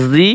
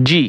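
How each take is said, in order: First: জি with a buzzing "z", as "zee"; similar-letter contrast. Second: জি with a hard "j", as "jee"; similar-letter contrast. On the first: Teacher drilling look-alike sounds, জি as buzzing zee. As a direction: say জি as "zee", no hard j. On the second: Teacher drilling look-alike sounds, জি as hard jee. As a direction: say জি as "jee", no z buzz. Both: Shown as a demonstration. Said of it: "একটা হরফের উচ্চারণ অন্য হরফের সাথে মিলে যায়".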